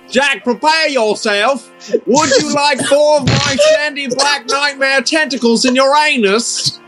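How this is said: It is read in a put-on British accent.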